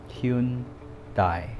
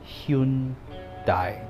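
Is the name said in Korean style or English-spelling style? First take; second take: English-spelling style; English-spelling style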